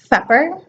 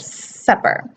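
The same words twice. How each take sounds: First: The S sounds like a TH sound. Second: The S is a clear hissing sound. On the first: The speaker calls it wrong. "a frontal lisp... the tongue comes out between the teeth" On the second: The speaker calls it right. "instead of supper"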